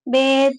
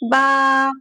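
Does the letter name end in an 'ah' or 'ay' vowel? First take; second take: ay; ah. First: The letter name ends in an 'ay' vowel. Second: The letter name ends in an 'ah' vowel. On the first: This is the Urdu way of naming the letter. The speaker calls it wrong. "आप लोगों ने उर्दू में पढ़ा होगा" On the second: This is the Arabic way of naming the letter. The speaker calls it right. "अरबी में ऐसे पढ़ते हैं"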